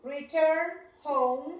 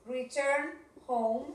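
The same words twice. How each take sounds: First: Drawn-out teacher model; slow model. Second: Slow it down once more, gently; slow model again. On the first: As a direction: say it slowly, stress return. (lento, marcando return) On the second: (lento y suave) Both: Shown as a demonstration. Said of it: "Vamos a poner return".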